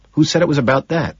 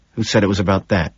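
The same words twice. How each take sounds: First: Quick, much higher-pitched question; insistent repeat. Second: Quick, understated tension; tense. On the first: Man repeats his challenge to colleague, high and insistent. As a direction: push the pitch right up and ask quickly. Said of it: "he asks again". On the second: Man at the table challenges his colleague, tensely. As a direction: ask it a touch tensely. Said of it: "he asks tensely". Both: A narrator's reading.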